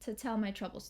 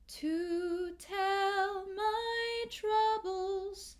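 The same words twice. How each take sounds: First: The vowel in 'to' is reduced and short. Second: The vowel in 'to' is a full ooh. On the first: This is how it sounds in everyday speech. "in normal speech, this might reduce to t" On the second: This is how it sounds in a slow song. "we'll keep it that ooh"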